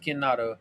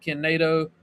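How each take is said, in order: First: "nah" in the middle of Kinado; Kinado as pronounced. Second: "nay" in the middle of Kinado; spelling version of Kinado with a long A; Kinado as spelled. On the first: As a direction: say Kinado as kin-NAH-doh. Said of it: "It's pronounced". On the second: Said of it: "It's spelled Kin". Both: Shown as a demonstration.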